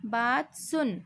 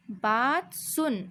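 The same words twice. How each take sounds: First: Said in the usual way. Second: Slow, with सुन drawn out and falling; slow reading demo. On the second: Shown as a demonstration. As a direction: stretch सुन out slowly for the class. (धीरे से, सुन खींचकर) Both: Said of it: "ध्यान से सुनिए".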